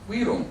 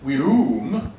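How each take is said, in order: First: Virum with a w sound, wirum; correct Latin pronunciation. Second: Virum with English v sound; wrong pronunciation. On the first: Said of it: "we say". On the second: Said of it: "we don't say virum, we say". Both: Shown as a demonstration.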